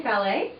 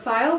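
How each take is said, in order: First: "fallet" said as fah-LAY; two-syllable pronunciation. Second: "file" said as one syllable, rhyming with mile; one-syllable pronunciation. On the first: Showing shoppers one way to say the fabric, two-syllable pronunciation. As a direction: say "fallet" French-style, ending in an AY sound. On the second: Offering shoppers the other fabric name, one-syllable pronunciation. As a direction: say "file" with a long I. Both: Shown as a demonstration. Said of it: "whichever way you say it".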